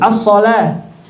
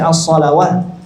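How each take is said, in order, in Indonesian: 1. Kata ini berakhir dengan bunyi a panjang, tidak ada w. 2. Bunyi w terdengar sebelum akhir kata. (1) "menjadi as-shalah" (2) "tidak dibaca as-shalawah"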